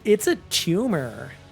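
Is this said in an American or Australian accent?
American. It is said in an American accent. The speaker calls it wrong. "Ugh. Yucky. If you say that as an Australian, that's proper wrong"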